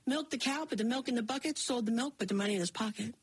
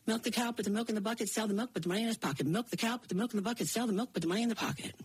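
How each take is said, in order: First: Said in the usual way. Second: Rushed chores. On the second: A narrator's reading. Narrator racing through the milking routine, fast.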